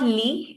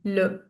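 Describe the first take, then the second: First: The vowel is a high 'ee' sound. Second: The vowel is a neutral 'uh' sound. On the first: The speaker calls it wrong. "It's not li" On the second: The speaker calls it right. "Please pronounce it properly"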